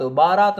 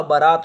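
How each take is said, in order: First: बारात with a long first "baa"; wrong pronunciation. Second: बारात with a short first vowel, "ba-raat"; correct pronunciation. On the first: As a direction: say बारात as baa-raat, the form to avoid. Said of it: "बारात नहीं होता". (बारात में "बा" लंबा, गलत रूप) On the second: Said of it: "बारात होता है". (बारात में "ब" छोटा, सही उच्चारण) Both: Shown as a demonstration.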